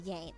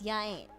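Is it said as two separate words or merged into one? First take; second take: merged; separate. First: The two words are run together as one. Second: The two words are said separately. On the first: "which devolves straight into yain't" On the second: "It's ya ain't"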